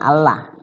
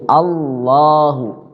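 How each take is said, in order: First: The L is pronounced light and thin. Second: The L is pronounced heavy and thick. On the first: The speaker calls it wrong. "bukan Allah, bukan" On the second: The speaker calls it right. "lafzul Allah itu adalah dibaca tafkhim"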